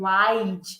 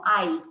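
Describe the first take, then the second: First: The final D sound is strong, Portuguese-like. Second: The final D sound is very soft. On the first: The speaker calls it wrong. "Não chega a ser um I'd aqui do nosso português" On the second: The speaker calls it right. "o Dzinho fica bem suave"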